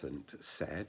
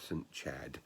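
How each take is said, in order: First: The name begins without a 'ch' sound. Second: The name begins with a 'ch' sound. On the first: "they seem to have dropped the H" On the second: "many people think it should be pronounced Chad"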